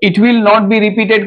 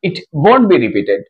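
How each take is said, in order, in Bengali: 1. 'Will not' দুটি পূর্ণ শব্দ হিসেবে বলা হয়। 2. 'Will not' একটি সিলেবলে সংক্ষেপ করা হয়। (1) "it विल नॉट be repeated के जगह" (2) "स्पोकन के लिए एब्रिविएटेड फॉर्म"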